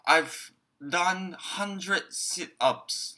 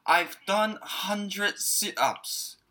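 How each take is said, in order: First: Very slow, each word laid out clearly; slow model sentence. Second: Very slow, each word laid out clearly; drawn out for the learners to follow; slow model sentence. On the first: Teacher to students, a very slow clear model line. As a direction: spell it out slowly for learners. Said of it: "文章に入れてやってみましょう". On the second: Teacher showing the English dialogue, very slow and clear. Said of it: "これを英語に直すと". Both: Shown as a demonstration.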